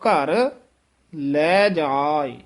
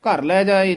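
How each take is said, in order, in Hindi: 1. पहले शब्द के बाद विराम आता है। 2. शब्द बिना रुके एक साथ चलते हैं।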